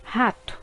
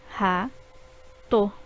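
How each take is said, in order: First: Said in the usual way. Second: Ra-to in two separate beats; syllables split. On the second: Shown as a demonstration. Teacher showing two syllables in rato. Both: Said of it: "formadas por duas sílabas".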